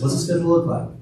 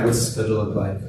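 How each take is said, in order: First: It is said with high, upbeat energy. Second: It is said with low, tired energy.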